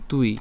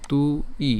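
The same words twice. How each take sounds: First: Said in the usual way. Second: "তু ই" as two separate sounds with a gap; split syllables. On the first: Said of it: "তাহলে হচ্ছে তুই". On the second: Shown as a demonstration. Teacher showing how it is written, "তু ই" said in two pieces. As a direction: break it apart: "তু", pause, "ই". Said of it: "আমরা এটাকে এভাবে লিখতে পারি".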